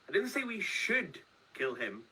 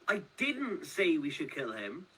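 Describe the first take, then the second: First: The stress is on "should". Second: The stress is on "didn't".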